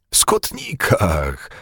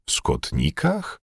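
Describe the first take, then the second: First: Slow, drawn-out exclamation, falling; joyful realization. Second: Slow, hushed question, rising; astonished. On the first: Bugaj suddenly understands and is overjoyed, joyful. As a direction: let sudden joy stretch the word. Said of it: "Niespodziewana radość go poniosła". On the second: Bugaj echoes the steward's question, astonished. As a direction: repeat it softly in disbelief. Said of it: "zdumiał się Bugaj". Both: A narrator's reading.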